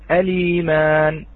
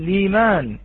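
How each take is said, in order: First: It begins with a glottal stop and vowel before L. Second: It begins directly with L, no initial vowel. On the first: "الإتيان بهمزة الوصل" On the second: "الابتداء باللام دون الهمزة"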